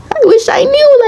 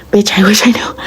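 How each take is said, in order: First: Leaps way up into a high exasperated squeak; high squeal. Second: Hushed exasperated whisper; a fed-up whisper to the camera. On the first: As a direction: squeal it like you truly give up. Exasperated repeat to viewers. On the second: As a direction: breathe it out, all air, no voice. Exasperated aside to viewers. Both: Real, not acted.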